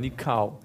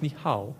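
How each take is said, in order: First: The word is drawn out with a long vowel. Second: The word sounds clipped and Chinese-like. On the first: The speaker calls it right. "dass man es lang spricht" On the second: The speaker calls it wrong. "Und nicht Nikao, das ist Chinesisch"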